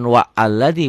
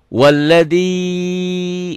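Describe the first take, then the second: First: Wa and alladzi are said separately, with a break. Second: Wa runs straight into alladzi without a break. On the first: The speaker calls it wrong. "bukan wa alladzi, bukan" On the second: The speaker calls it right. "Tapi dari wa jadi walladzi"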